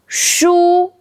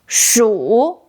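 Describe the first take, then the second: First: The syllable is said with a high level tone. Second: The syllable is said with a dipping tone. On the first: It means books. "first tone, 书 means books" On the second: It means mouse. "Third tone, 鼠 means mouse"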